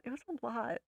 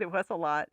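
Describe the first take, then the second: First: Much softer, a little higher; quiet, trailing emphasis; hushed repeat. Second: Said in the usual way. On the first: Real, not acted. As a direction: say it again under your breath, pitched up. Repeats herself, second time hushed.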